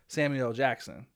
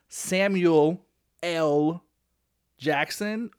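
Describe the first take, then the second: First: The L blends into the end of Samuel. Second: The L is said as its own separate letter. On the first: "we just kind of let it flow together" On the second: "should it be pronounced Samuel L. Jackson?"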